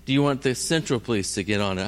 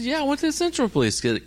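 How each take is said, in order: First: Said in the usual way. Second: High, rapid-fire reply; exasperated insistence. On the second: Retold or imitated. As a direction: fire the answer back in a much higher pitch. Exasperated answer to police.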